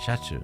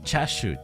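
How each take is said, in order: First: The word begins with a 'sha' sound. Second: The word begins with a 'cha' sound. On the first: The speaker calls it wrong. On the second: The speaker calls it right.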